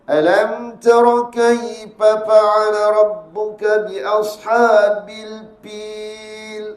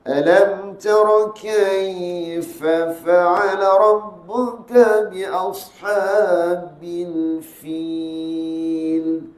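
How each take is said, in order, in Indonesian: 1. Bunyi f berubah menjadi p, dengan bibir tertutup. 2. Bunyi f jelas, dengan bibir terbuka. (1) "Jangan dibaca tutup mulut. Dirapatkan kedua bibir" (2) "Gitu je"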